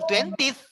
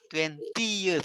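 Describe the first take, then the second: First: The vowel before the final th is dropped. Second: The vowel before the final th is sounded. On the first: The speaker calls it wrong. "Bukan twentieth. ... E-nya kok nggak dibaca?" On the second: The speaker calls it right. "twenty tambah E T H"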